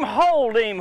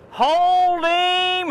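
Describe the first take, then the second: First: Excited call. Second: Higher, louder urgent hold him; excited shout. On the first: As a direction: call it firmly. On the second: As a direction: yell it urgently. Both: Real, not acted. Fish fighting on line.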